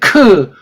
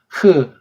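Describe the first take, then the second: First: The consonant is a hard k-like stop. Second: The consonant is a soft rough friction sound. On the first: The speaker calls it wrong. "크는 틀린 발음이에요" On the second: The speaker calls it right. "크가 조금 부드러워져야 되겠죠"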